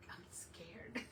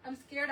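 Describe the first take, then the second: First: Breathy little whisper, voice dropped right out; scared whisper. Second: Said in the usual way. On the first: Retold or imitated. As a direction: whisper it like a secret fear. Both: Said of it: "but I'm like".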